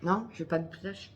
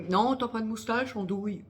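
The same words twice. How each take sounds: First: Said in the usual way. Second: Quoting her friend. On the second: Retold or imitated. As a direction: mimic the friend's cheeky denial. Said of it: "Elle m'a dit".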